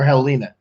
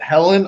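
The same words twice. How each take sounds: First: "Helena" with a long ee, hel-EE-na; name pronunciation check. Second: "Helen" stressed on HEL, short second syllable; name pronunciation check. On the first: Designer checking a client's name, offering "Helena" as hel-EE-na. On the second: Designer checking a client's name, offering "Helen" as HEL-en. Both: Shown as a demonstration. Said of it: "Am I pronouncing it right?".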